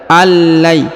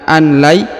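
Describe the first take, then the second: First: The n merges fully into a doubled l. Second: A separate n is sounded before the l. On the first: The speaker calls it right. "kita baca allai" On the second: The speaker calls it wrong. "bukan an lai"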